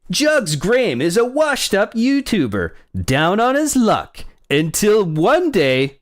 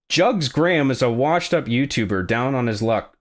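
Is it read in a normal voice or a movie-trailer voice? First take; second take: movie-trailer voice; normal voice. First: It is read in a dramatic movie-trailer voice. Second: It is read in a plain, normal voice.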